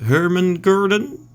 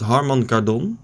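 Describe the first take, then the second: First: The name is said in an attempted English pronunciation. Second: The name is said in the speaker's native pronunciation. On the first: "I don't know how to pronounce the brand of the speakers in English... I think if I tried" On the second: "we call it"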